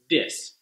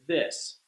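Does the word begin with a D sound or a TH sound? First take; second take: D; TH. First: The word begins with a D sound. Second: The word begins with a TH sound. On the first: The speaker calls it wrong. "replace the D sound that you were using, like dis" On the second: The speaker calls it right. "and change it to this"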